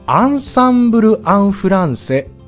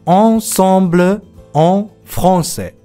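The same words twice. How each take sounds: First: The vowels are plain, like Japanese an. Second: The vowels are nasal, closer to on.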